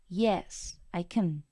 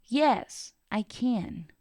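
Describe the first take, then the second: First: The word can has a reduced weak vowel. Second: The word can has its full vowel. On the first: The speaker calls it wrong. "No puedo decir" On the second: The speaker calls it right. "Toda la pronunciación completa"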